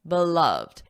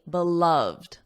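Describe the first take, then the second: First: The word is said with two syllables. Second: The word is said with two syllables.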